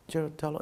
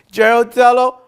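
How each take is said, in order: First: Put-on barely audible, a scared child's mumble; small timid voice. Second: A forced loud call-out, higher and much louder; loud on command. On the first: Five-year-old in class saying the English name timidly, very soft. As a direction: shrink the name down to almost nothing. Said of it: "Say it big voice". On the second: Retold or imitated. Schoolboy told by teacher to use his big voice, loud. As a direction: belt the name out to the whole class. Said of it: "say it out loud".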